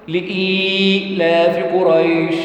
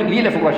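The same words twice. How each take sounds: First: The long vowel is held for two counts. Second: The long vowel is held for one count. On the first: The speaker calls it right. "حركتين نقراها نقول ايه بقى؟" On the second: The speaker calls it wrong. "اعتبرها مرة واحدة"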